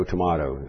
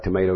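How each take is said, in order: First: Tomato with an open AH in the middle; pronunciation tuh-MAH-toh. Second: Tomato with a MAY middle; pronunciation tuh-MAY-toh. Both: Shown as a demonstration. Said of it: "it's like tomato, tomato".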